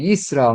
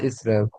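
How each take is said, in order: First: The word begins with a clear y sound. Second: The word begins directly with a vowel. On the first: The speaker calls it right. "it should be Yisrael" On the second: The speaker calls it wrong. "not Israel"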